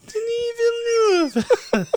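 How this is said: It is said in a high-pitched voice.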